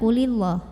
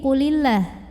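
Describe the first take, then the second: First: The L in Allah is heavy and full. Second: The L in Allah is light and thin. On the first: The speaker calls it wrong. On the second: The speaker calls it right. "ini dibacanya tarqiq karena huruf sebelumnya lam barisnya kasrah"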